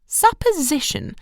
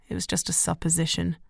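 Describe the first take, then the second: First: Questioning repeat. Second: Said in the usual way. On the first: A narrator's reading. Mother repeats word.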